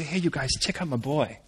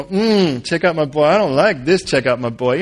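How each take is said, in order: First: Soft, lower, understated brag; God showing off. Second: Mildly mocking, reluctant echo; grudging mimicry. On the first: Acted. God presenting Joseph to everyone, quiet pride. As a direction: quietly point out a favourite son. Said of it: "As if God were to say". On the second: Joseph objecting to God's praise, grudging mimicry. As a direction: grumble it back with distaste. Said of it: "you could see Joseph kinda go".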